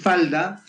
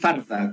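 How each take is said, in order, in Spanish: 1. La consonante del medio es un sonido L. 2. La consonante del medio es un sonido R. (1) "en vez de decir falda" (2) "como que ponían la R"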